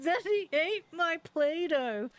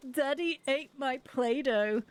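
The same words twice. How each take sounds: First: Put-on high, slow, drawn-out child's wail; upset child. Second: Put-on slow, drawn-out child's complaint; upset child. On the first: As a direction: wail it like a child beside himself, imitated. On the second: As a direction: imitate a little one's mild wail. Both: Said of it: "He's really upset".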